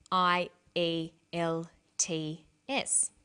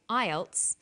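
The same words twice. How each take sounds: First: I E L T S as five separate slow letters; spelled letter by letter. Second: Ielts as one word, "EYE-elts"; pronounced as word. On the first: Teacher showing what not to say, I E L T S letter by letter. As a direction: spell out I E L T S slowly, a gap after each. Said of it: "we don't pronounce the individual letters". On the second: Teacher showing an acronym, ielts spoken as one word. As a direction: say ielts as a single word, not letter by letter. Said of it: "we pronounce it as a word". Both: Shown as a demonstration.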